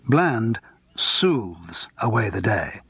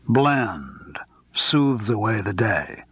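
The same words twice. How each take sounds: First: The word soothes carries the stress. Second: The word Bland carries the stress.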